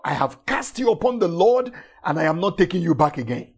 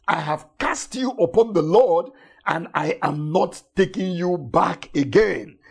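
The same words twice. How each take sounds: First: Rattled off fast as a firm retort; fast quoted declaration. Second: Said in the usual way. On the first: Shown as a demonstration. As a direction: fire it back quickly at the worries. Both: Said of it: "you are reminding them that".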